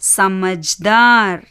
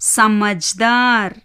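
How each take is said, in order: The two takes are said the same way.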